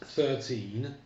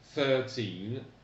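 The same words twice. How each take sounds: First: The word is said quickly. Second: The word is said slowly and carefully. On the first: "J'ai peut-être été un peu rapide" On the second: "accent tonique, puis i allongé"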